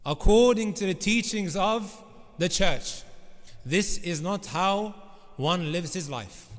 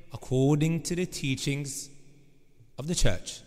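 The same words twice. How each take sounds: First: Said in the usual way. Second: Put-on slow, low Scottish accent. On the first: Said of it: "he keeps on saying". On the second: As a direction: imitate a Scottish politician. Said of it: "in his Scottish accent".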